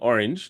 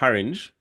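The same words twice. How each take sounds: First: The word starts directly with the vowel. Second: The word starts with an added H sound. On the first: "instead of saying orange" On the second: "a D J might pronounce it with a H"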